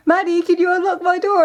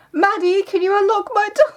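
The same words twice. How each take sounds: First: High calling through the door, a touch lighter; sister calling again. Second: High muffled cry for help; sister calling through the door. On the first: Retelling the sister's locked-in call, lightly high. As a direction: repeat the muffled plea, higher. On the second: Sister stuck in her room, calling for help, high and muffled. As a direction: call out like someone shut behind a door. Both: Retold or imitated. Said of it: "and I hear".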